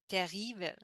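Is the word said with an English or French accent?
French. The word is said with a French accent. The speaker calls it wrong.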